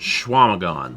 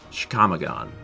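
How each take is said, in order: First: The name begins with a 'shw' sound. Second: The name begins with a 'chick' sound. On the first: This is how locals say the name. "And that's pronounced" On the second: This is how the spelling suggests saying it. "I would pronounce it uh"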